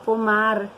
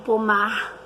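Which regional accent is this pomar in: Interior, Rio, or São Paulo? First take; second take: São Paulo; Rio. First: It is said in a São Paulo city accent. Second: It is said in a Rio de Janeiro accent. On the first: "O pessoal lá de São Paulo, da capital, fala pomar" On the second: "Os cariocas falam pomar"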